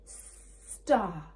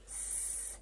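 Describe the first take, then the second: First: STAR as one word with a long S; blended word. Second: STAR split into s, t, ar; segmented phonics demo of "star"; sounded out. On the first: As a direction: say STAR whole, stretching the S. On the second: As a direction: say S, T, AR with long gaps. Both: Shown as a demonstration. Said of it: "I can hear a sound".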